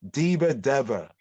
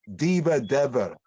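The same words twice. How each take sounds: No difference in how they are said.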